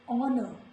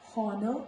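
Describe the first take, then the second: First: The word begins without any h sound. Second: The word begins with an audible h sound. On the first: The speaker calls it right. "it is honor" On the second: The speaker calls it wrong. "it is not honor"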